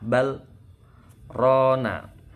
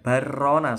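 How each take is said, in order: First: A brief breathless stop comes after the first word. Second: The words run together with no stop between. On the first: The speaker calls it right. "tapi di saktah bal rona" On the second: The speaker calls it wrong. "jadi bukan barrona, salah"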